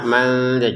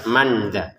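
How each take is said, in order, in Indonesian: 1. Bunyi n samar dan tersembunyi. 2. Bunyi n diucapkan dengan jelas. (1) "dibaca dengan samar" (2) "jangan dibaca dengan jelas"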